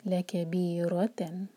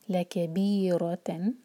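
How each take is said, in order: First: लकबीरतन slowly, heavy pressed रॉ; stress on रॉ. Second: लकबीरतन slow with बी stretched and रॉ heavy; stress on रॉ. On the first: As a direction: hit the रॉ in लकबीरतन. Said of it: "और रॉ पर जोर". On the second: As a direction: recite लकबीरतन, pressing रॉ. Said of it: "उसको जोर देते हैं". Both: Shown as a demonstration.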